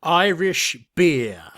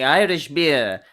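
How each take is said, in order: First: Slow, deliberate mock presenter; imitating Raymond. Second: Slow, louder mock presenter; imitating Raymond. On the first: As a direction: drawl it out like the old presenter. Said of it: "your best Raymond, uh, accent". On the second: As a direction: drag out the words like the old host. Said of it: "your lovely impression there of him saying Irish beer".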